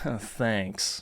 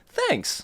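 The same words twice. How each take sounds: First: It sounds snarky and sarcastic. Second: It sounds warm and sincerely appreciative. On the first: The speaker is not really grateful. "a little bit of a snarky tone behind it" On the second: The speaker is genuinely grateful. "you could be really appreciative of someone"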